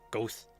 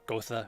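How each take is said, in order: First: The name is said as one syllable, Goth. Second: The name is said as two syllables, Go-tha. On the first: "or Goth" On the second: "not Gotha"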